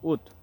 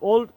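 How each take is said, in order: First: The word is said like "wood", without an L. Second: The word is said like "old", with an L. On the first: The speaker calls it right. "সঠিক উচ্চারণ হবে উড" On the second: The speaker calls it wrong. "ওল্ড উচ্চারণটি সম্পূর্ণই ভুল এবং রং"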